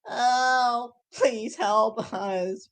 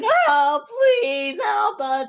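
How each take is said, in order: First: It is said in a dry, parched voice. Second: It is said in a clear, full voice.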